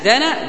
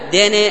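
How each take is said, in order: First: The final vowel is a plain open a. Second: The final vowel is tilted toward e. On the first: The speaker calls it right. "إذن لا يمال" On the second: The speaker calls it wrong. "فلا تأتي أن تقول دنا"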